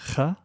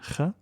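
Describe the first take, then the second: The two takes are said the same way.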